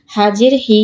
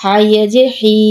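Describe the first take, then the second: First: No stretch on হি; short vowel. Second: Long, sustained হি; drawn-out vowel. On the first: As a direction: end on a short হি. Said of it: "কোথায় দ্রুত পড়ি". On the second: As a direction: hold the final হি for one alif count. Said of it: "কোথায় টান দিই". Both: Shown as a demonstration.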